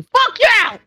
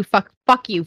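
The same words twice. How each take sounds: First: Pitched high and yelled; mock outrage. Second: Said in the usual way. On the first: Real, not acted. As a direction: shout it in mock fury. Playful cursing at friend.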